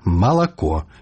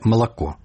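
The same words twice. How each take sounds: First: Every unstressed vowel is pronounced clearly and fully. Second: The unstressed vowels are reduced and weakened. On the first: This is how it is said in Belarusian. The speaker calls it right. "Кажем выразно" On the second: This is how it is said in Russian. The speaker calls it wrong. "не «молоко», як по-расейску"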